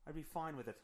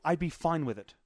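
First: Much softer, under the breath; quiet aside. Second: Said in the usual way. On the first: Real, not acted. Admitting he'd accept people hit by bus, quiet aside. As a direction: drop it to a low-volume afterthought.

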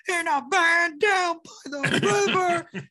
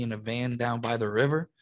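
First: High, slow, strained comic bellow; hammed-up catchphrase, dragged out high; YouTube clip imitation. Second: Said in the usual way. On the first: Comic imitating the clip his wife played, hammed-up high bellow. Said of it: "my wife pulls the YouTube clip of". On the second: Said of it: "he says to me".

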